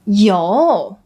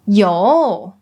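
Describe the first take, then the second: No difference in how they are said.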